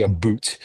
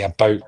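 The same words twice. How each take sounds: First: "a boot" with a long oo vowel; exaggerated "about". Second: "about" with a rounded Canadian diphthong. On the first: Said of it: "We don't say a boot". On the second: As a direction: say "about" the Canadian way, not "a boot". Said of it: "we say about". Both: Shown as a demonstration.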